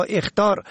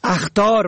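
First: اخطار said "ekhtar"; short e starting اخطار; kasra on first. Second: اخطار said "akhtar"; fatha on first. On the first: Teacher shows اخطار for "warning", pronounced ekhtar. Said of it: "به کسر اول". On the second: Teacher shows اخطار for "dangers", pronounced akhtar. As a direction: open a starting اخطار. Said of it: "به فتح اول". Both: Shown as a demonstration.

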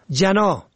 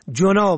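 First: جنا said "jana"; fatha on first. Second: جنا said "jona"; rounded o after j in جنا; zamma. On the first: Teacher shows جنا for "wing", pronounced jana. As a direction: open short a after j in جنا. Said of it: "به فتح اول". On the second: Teacher shows جنا for "sin", pronounced jona. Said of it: "به ضم دوم". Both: Shown as a demonstration.

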